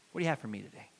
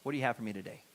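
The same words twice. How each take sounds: First: "you" leaned on in "What do you have for me today?"; stress on you. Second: "have" leaned on in "What do you have for me today?"; stress on have. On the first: Praying to God for the day, stress on "you". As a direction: softly lean on the word "you". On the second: Praying to God for the day, stress on "have". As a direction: softly lean on the word "have". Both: Shown as a demonstration. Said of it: "It's okay, God".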